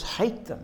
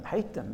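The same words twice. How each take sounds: First: "Hate them" pitched high and hit hard on "Hate"; emphatic command. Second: Soft echo. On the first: Preacher voicing Jesus' command to his followers, stressing "Hate". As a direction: punch "Hate" up high, then let "them" fall. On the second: Echoing Jesus' command under the breath, softer. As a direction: drop back down and quietly echo "hate them". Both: Acted.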